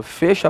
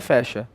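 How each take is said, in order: First: "Fecha" with a closed e, as in "ê"; "Fecha" pronounced FÊ-sha. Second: "fecha" with an open e, as in "é"; "fecha" pronounced FEH-sha. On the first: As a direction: say the first vowel of "Fecha" closed, like "fêcha". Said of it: "Fechar. Então, não é fecha". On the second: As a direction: open up the first vowel of "fecha", like "fécha". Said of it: "Então, não é fecha". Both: Shown as a demonstration.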